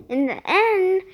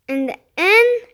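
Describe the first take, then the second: First: Said in the usual way. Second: In the end said higher and louder; louder restart. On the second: Shown as a demonstration. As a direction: restart In the end with more force.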